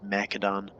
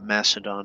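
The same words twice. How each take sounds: First: The c is said without an s sound. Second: The c is said as an s sound. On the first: The speaker calls it right. "it's Macedon" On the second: The speaker calls it wrong. "It's not Macedon"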